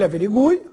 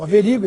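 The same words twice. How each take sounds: First: The stress falls on the u syllable. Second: The stress falls on a syllable other than u. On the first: "fosse pronunciada em tônica" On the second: "no Brasil"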